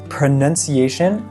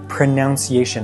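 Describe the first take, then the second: First: The second syllable sounds like 'nun'. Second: The second syllable sounds like 'noun'. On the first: The speaker calls it right. "Correctamente se dice pronunciation" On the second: The speaker calls it wrong. "pero muchísimas personas dicen pronunciation"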